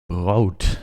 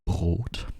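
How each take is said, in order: First: It has a strong English-sounding accent. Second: It has only a light foreign accent. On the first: "how about brood?" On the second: "I can do even less accent"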